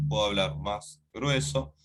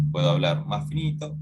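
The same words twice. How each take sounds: First: Lightly put-on thicker voice; a slight attempt at a heavier voice. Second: Lightly put-on thinner voice; a slight attempt at speaking thinner. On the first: Teacher showing students a voice change, mildly thickened voice. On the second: Teacher showing students a voice change, mildly thinned voice. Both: Shown as a demonstration. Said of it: "yo puedo cambiar la voz".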